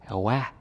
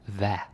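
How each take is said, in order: First: It begins with a W sound. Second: It begins with a V sound.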